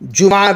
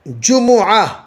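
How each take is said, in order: First: The m is followed by no vowel. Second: The m is followed by an u vowel. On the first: "साकिन भी दो" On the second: "जम्मा भी दो"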